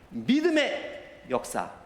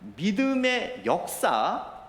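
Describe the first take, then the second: First: The stress falls on the first word. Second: The stress falls on the second word. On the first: Faith is what matters most. The speaker calls it right. "원어의 뉘앙스대로 읽는다면 이렇게 읽어야 돼요" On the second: The work is what matters most. The speaker calls it wrong. "그 의와 연결된 단어에 강조가 있는 것으로 우리가 느껴질 수 있지만"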